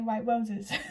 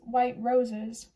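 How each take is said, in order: First: The R sounds come out like W sounds. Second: The R sounds are clear, said at speed. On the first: The speaker calls it wrong. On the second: The speaker calls it right. "I was able to say it, say it quickly that time"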